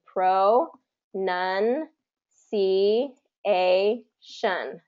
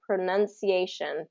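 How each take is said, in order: First: Very slow, syllable by syllable with pauses; long gaps between drawn-out syllables; broken apart. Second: Said in the usual way. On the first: Shown as a demonstration. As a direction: isolate each syllable, as if teaching it. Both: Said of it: "break it apart".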